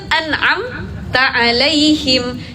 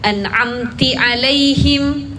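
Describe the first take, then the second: First: The first word ends in an 'a' vowel. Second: The first word ends in an 'i' vowel. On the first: The speaker calls it right. "Itu kan an'amta alaihim" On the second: The speaker calls it wrong. "Kita bacanya diganti domah atau kasrah"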